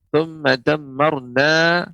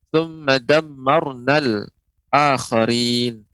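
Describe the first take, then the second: First: The phrase ends on a lengthened final vowel. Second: The final vowel is short and joins the next word. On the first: The reciter stops after this word. "Ini ketika berha- dibaca waqaf berhenti" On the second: The reciter continues into the next word. "ketika bersambung"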